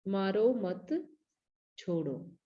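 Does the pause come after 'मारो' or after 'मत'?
after मत. The pause comes right after 'मत'.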